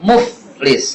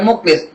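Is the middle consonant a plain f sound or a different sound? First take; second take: plain f; different sound. First: The middle consonant is a plain f. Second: The middle consonant is not a plain f. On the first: The speaker calls it right. "F doang" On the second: The speaker calls it wrong. "Bukan muflis"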